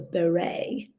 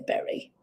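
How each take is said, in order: First: The word ends with an 'ay' sound. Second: The word ends with an 'ee' sound.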